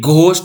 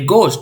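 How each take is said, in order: First: It starts with a breathy gh sound. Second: It starts with a plain g sound. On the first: The speaker calls it wrong. "ये घोस्ट नहीं है" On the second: The speaker calls it right. "ये गोस्ट है"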